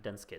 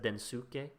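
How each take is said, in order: First: The vowel after the s is dropped. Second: The vowel after the s is clearly pronounced. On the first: The speaker calls it right. "someone told me it's actually Densuke" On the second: The speaker calls it wrong. "I usually always said Densuke"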